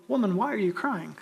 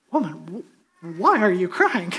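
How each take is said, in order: First: Said in the usual way. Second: Halting, puzzled question with a stammered restart; mock confusion. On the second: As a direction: act baffled, slow on the first word. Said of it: "if these angels asked in real confusion".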